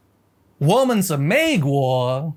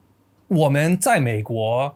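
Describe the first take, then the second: First: Slow Mandarin "我们是美国" said with flat English intonation, no real tones; American-accented Chinese. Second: Slow "我们在美国" with each Mandarin tone clearly shaped; proper Mandarin tones. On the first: Retold or imitated. Imitating the American guy in the video, slow American-accented Chinese. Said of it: "your typical American accented Chinese". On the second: Shown as a demonstration. Showing how a Chinese speaker would really say it, slow and tonal. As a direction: demonstrate the native way, tones carefully placed. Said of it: "Chinese would sound like".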